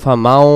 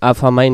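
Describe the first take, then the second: First: The last syllable ends in a 'w' glide. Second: The last syllable ends in an 'ee' glide. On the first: The speaker calls it right. "মিম ওয়া জবর মাও" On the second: The speaker calls it wrong. "আফামাই না"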